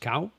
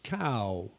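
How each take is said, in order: First: The word is said on a high tone. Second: The word is said on a falling tone. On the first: "There's a high tone, which is cow" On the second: "A falling tone is cow"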